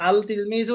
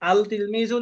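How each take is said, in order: First: The l is pronounced before the t. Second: The same.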